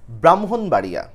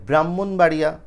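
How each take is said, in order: First: ব্রাহ্মণবাড়িয়া as "bram-hon-baria"; correct pronunciation. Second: ব্রাহ্মণবাড়িয়া as "brammon-baria", doubled m; common mispronunciation. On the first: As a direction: sound the h after the m in ব্রাহ্মণবাড়িয়া. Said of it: "ওটা উচ্চারণ হচ্ছে". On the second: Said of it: "ওটা উচ্চারণ কিন্তু ঠিক না". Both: Shown as a demonstration.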